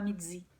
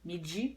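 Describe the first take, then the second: First: The d has a buzzing z sound mixed in. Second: The d is a plain d sound. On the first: "Aqui você fala midi, dz" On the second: "no português a gente fala, falaria midi"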